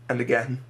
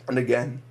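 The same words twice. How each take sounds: The two takes are said the same way.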